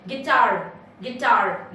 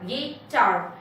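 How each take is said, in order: First: Said in the usual way. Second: गिटार in two separate beats, gi, taar; syllable by syllable. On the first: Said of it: "दो sound निकलते हैं". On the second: Shown as a demonstration. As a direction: break गिटार after gi. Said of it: "So two syllables".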